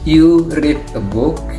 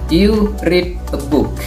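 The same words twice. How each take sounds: First: The pitch rises at the end like a question. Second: The pitch falls at the end like a statement. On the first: It asks whether the listener reads a book. "karena intonasinya seperti itu, maka kalimat contoh kalimat itu menjadi sebuah kalimat interrogatif" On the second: It states that the listener reads a book. "affirmative sentence"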